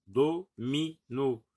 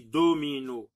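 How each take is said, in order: First: "domino" slowly split as do, mi, no; syllable by syllable. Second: Said in the usual way. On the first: Shown as a demonstration. Teacher naming the game piece, "domino" in slow syllables. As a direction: separate each syllable of "domino" with a short gap. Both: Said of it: "on dit domino".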